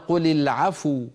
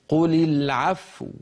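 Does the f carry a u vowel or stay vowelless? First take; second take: u vowel; vowelless. First: The f is given a u vowel. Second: The f is vowelless, then the lips round. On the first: The speaker calls it wrong. "نكون قد ضممنا الفاء وهي فاء ساكنة" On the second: The speaker calls it right. "ننطق الفاء ساكنة ثم نضم الشفتين"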